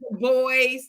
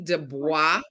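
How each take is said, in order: First: The name is said the anglicized English way. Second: The name is said the original French way. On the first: This is how the man himself said his name. "it's actually Du Bois... he was from Massachusetts, and so it was anglicized" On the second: This is how the name originally sounds. "really is supposed to be Du Bois"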